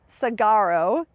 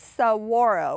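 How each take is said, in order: First: It is said without a W sound. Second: It is said with a W sound. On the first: The speaker calls it wrong. "A lot of people pronounce this" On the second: The speaker calls it right. "It is saguaro with a W sound"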